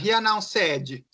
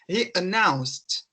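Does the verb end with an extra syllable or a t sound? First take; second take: extra syllable; t sound. First: The ending is said as an extra syllable. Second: The ending is a short st sound. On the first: The speaker calls it wrong. "Bem diferente do que falar assim" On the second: The speaker calls it right. "Eu vou fazer o sonzinho do S e pôr o T"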